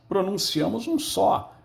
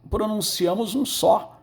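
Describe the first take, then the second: No difference in how they are said.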